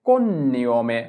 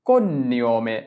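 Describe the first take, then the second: Both takes have the same delivery.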